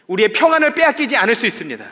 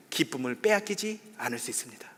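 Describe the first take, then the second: First: 평안을 hit much louder and higher; emphatic preaching. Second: Said in the usual way. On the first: Real, not acted. Pastor urges church members, loud emphatic preaching. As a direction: build to a strong declaration. Sermon repetition, building.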